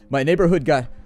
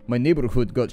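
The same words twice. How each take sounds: First: It is said in his ordinary speaking voice. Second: It is said in a put-on character voice.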